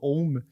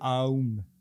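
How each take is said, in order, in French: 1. La voyelle est un seul son o, stable. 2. La voyelle glisse de a vers u. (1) "c'est pas Om" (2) "c'est Aum"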